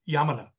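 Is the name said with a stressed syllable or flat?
flat. All syllables are even and flat, Japanese style.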